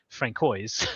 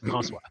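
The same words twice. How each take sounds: First: The C is hard, like a K. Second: The C is soft, like an S. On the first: The speaker calls it wrong. "not as I got uh, called uh, when I lived in Boston" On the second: The speaker calls it right. "because it is a soft C and a silent S"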